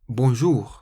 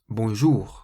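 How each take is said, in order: First: The stress is on the last syllable. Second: The same.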